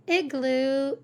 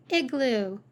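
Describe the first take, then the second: No difference in how they are said.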